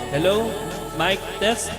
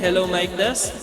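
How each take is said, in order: First: The voice has a slight echo. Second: The voice sounds brighter and more present. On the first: "gusto natin lagyan ng konting echo" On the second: "gawing bright yung ating microphone"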